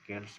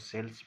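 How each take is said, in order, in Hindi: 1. यह शब्द K ध्वनि से शुरू होता है। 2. यह शब्द S ध्वनि से शुरू होता है। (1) "केल्स भी कर सकते हैं" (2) "आप इसको सेल्स भी प्रोनाउंस कर सकते हैं"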